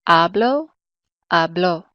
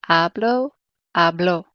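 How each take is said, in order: The two takes are said the same way.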